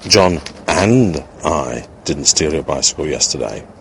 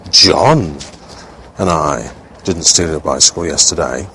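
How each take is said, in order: First: The stress is on and. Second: The stress is on John.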